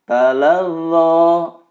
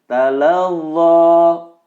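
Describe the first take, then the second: The two takes are said the same way.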